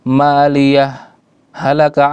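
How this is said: A brief stop separates the two words. The speaker calls it right. "Ada sakta yang artinya berhenti sejenak"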